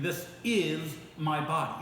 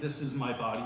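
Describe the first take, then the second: First: The word 'is' is said with strong stress. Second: The word 'is' is said without stress.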